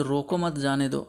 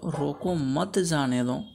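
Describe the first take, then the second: First: रोको as one unit, then मत जाने दो together; comma after रोको. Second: Slow रोको मत, held before जाने दो; group रोको with मत; comma after मत. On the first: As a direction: keep मत joined to जाने दो. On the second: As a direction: stretch मत, then release जाने दो. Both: Shown as a demonstration. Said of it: "अल्प विराम चिन्ह का प्रयोग अलग-अलग स्थानों पर".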